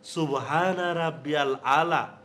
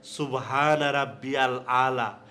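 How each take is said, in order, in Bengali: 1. প্রতিটি শব্দ পূর্ণভাবে ও স্পষ্টভাবে উচ্চারণ করা হয়। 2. প্রতিটি শব্দ পূর্ণভাবে ও স্পষ্টভাবে উচ্চারণ করা হয়।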